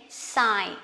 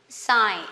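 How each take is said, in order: Both takes have the same delivery.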